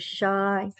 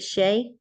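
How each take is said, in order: First: The name's vowel rhymes with 'eye'. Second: The name's vowel rhymes with 'day'. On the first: The speaker calls it right. "I had it right first time" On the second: The speaker calls it wrong. "Is it Shay?"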